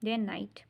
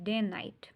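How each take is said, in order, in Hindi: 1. 'and' पर ज़ोर नहीं होता और इसे हल्का करके छोटा बोला जाता है। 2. 'and' पर ज़ोर नहीं होता और इसे हल्का करके छोटा बोला जाता है।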